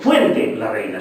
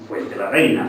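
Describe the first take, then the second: First: Fuente carries its own stress. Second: Fuente is unstressed; the stress falls on Reina. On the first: "No he dicho"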